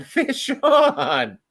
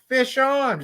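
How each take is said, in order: First: High shout breaking into laughter; laughing shout. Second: High excited call; shouting. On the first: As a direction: laugh while you yell it. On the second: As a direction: call it out to everyone. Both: Retold or imitated. Calling out a hooked fish.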